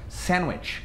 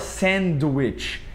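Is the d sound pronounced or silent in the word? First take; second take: silent; pronounced. First: The d sound is left out. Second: The d sound is clearly pronounced. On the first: The speaker calls it right. "Esse D, ele geralmente ele costuma ser mudo" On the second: The speaker calls it wrong. "A gente não fala sandwich"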